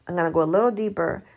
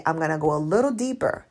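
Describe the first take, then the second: First: Fast throwaway repeat; quick repeat. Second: Said in the usual way. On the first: Shown as a demonstration. Coach repeating her promise quickly. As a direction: rattle it off quickly.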